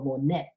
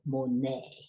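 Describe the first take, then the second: First: The final T sound is pronounced. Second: The final T sound is silent. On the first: The speaker calls it wrong. "So you don't go Monet" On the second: The speaker calls it right. "you don't pronounce that T. T is silent"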